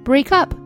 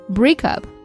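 First: The stress falls on up. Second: The stress falls on break. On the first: It is a verb phrase. "动词是吧？重音放在后边" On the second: It is a noun. "变成名词形式了，重音放在前边"

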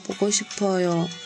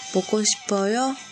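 First: The voice falls at the end. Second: The voice rises at the end. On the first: It states that the speaker misses someone. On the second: It asks whether the listener misses someone.

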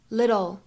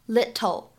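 First: The middle t is a soft, quick flap. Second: The middle t is a clear, full t. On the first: The speaker calls it right. "可以直接比较慵懒的读成little" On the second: The speaker calls it wrong. "我们不需要读成little"

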